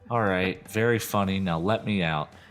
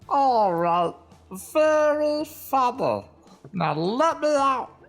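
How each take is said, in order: First: It is said in a normal voice. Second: It is said in a tiny little voice.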